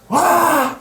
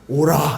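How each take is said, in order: First: It is shouted loudly. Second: It is said quietly and calmly.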